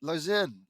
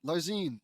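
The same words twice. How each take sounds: First: "Larzen" said as LAR-zen with a short e at the end; name pronunciation try. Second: "Larzine" said as lar-ZEEN with a long ee at the end; name pronunciation try. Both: Shown as a demonstration. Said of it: "Larz-, Larze".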